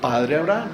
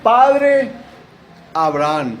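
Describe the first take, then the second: First: Said in the usual way. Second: High, loud anguished call to Abraham; crying out loud. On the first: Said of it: "Al decir". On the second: Acted. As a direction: call out to the father from far away. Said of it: "él dando voces dijo". (gritando "Padre Abraham" con angustia)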